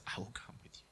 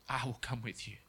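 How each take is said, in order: First: Breathy whispered promise. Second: Quietly voiced repeat of the promise; soft repeat. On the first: Acted. God whispering his promise to the fearful man, whispered. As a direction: breathe it barely aloud. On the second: God repeating the promise to the fearful man, softly voiced.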